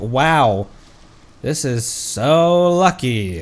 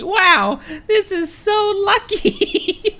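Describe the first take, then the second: First: It is said sarcastically. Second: It is said sincerely.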